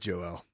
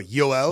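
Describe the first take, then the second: First: The name begins with a J sound. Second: The name begins with a Y sound. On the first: "he's Joel" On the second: "the Finnish pronunciation of his first name"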